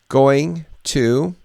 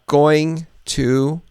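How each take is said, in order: No difference in how they are said.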